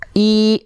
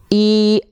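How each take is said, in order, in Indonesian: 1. Vokalnya terdengar seperti i yang jelas. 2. Vokalnya terdengar seperti i yang jelas.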